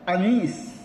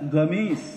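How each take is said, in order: First: The word starts with a glottal stop. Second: The word starts with a hard g sound. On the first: This is how Egyptians say it. "Kalau orang Mesir komis, kof itu dibacanya dengan hamzah" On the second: This is how Saudis say it. "kalau orang Saudi itu komisun, itu dibacanya gamis"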